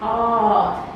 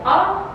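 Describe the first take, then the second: First: The vowel sound is held much longer. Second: The vowel sound is held only briefly. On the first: "Much longer" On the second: "If before we have aw"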